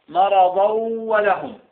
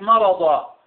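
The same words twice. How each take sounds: First: "مرضا" said "maradaw", nun merged and held into "ولهم"; linked tanween. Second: "مرضا" said "maradaa", open final vowel without n; unlinked stop. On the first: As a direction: link "مرضا" to "ولهم" with a humming glide. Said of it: "مرضا إذا وصلنا". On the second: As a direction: stop on "مرضا" with no tanween sounded. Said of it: "إذا لم تصل لا تلفظه". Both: Shown as a demonstration.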